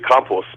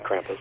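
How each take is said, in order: First: The word has a German pronunciation. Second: The word has an American English pronunciation. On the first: "the German would be Krampus" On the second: "say it the American way"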